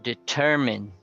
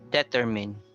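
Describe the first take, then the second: First: The stress is on the second syllable. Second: The stress is on the first syllable. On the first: The speaker calls it right. "the stress is on the second" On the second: The speaker calls it wrong. "It's not on the first, like determine"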